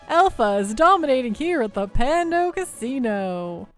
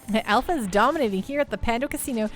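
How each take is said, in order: First: It is said in a Pokemon Stadium announcer voice. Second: It is said in his normal voice.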